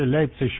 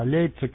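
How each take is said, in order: First: The city name ends in a soft sh-like sound. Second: The city name is pronounced the standard German way. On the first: "По-заксонски это вообще Лейпцищ будет" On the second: "вроде как по-немецки"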